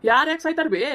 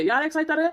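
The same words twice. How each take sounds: First: Louder, higher snap back at her; sharp retort. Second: Said in the usual way. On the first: Acted. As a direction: throw the question back hard. Son snaps back at mother.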